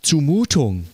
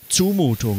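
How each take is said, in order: First: The stress is on the second syllable. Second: The stress is on the first syllable. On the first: It means something that requires courage. "Also etwas, was Mut erfordert" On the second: It means an unreasonable demand. "es betonen als Zumutung. Man betont ja alles auf der ersten Silbe"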